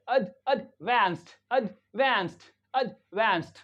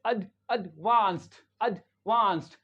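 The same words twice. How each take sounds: First: "एडवांस्ड" with an American 'ae' in the second syllable; "एडवांस्ड", short first syllable, stressed 'vaenst'; American English pronunciation. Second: "एडवांस्ड" with a broad 'ah' in the second syllable; "एडवांस्ड", short first syllable, stressed 'vaahnst'; British English pronunciation. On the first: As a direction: say "एडवांस्ड" as uhd-VANST, vowel as in "man". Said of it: "American English में क्या पढ़ेंगे". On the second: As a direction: say "एडवांस्ड" as uhd-VAHNST, British vowel. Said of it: "British English में". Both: Shown as a demonstration.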